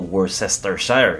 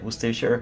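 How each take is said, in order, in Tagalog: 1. Binibigkas ang bawat pantig ayon sa nakasulat. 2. Hindi ito binibigkas ayon sa baybay. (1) "Ang tawag ko dati dito, Worcestershire. Yun ang nakalagay doon sa lalagyan eh" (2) "Worcestershire ang tamang pronunciation"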